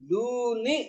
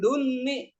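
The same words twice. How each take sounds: First: The first vowel is long, single n. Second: The vowel is short, the n is doubled. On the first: The speaker calls it right. "mad panjang" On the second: The speaker calls it wrong. "Kalau duni itu nunnya bertasdid"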